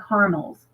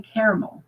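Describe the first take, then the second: First: Caramels said as CAR-mulz; caramels as carmels. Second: Caramel said as CARE-uh-mel; caramel in three syllables, CARE-uh-mel; caramel, full middle syllable. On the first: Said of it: "I would call them caramels". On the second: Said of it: "I always say caramel". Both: Shown as a demonstration.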